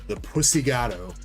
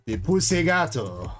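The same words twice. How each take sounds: First: It is said in the speaker's plain voice. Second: It is said in a put-on foreign accent.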